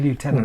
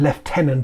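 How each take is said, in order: First: It is said with an American pronunciation. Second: It is said with a British pronunciation. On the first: "they don't want to sound American by saying lieutenant" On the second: "as we call them in England"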